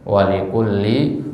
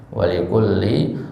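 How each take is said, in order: No difference in how they are said.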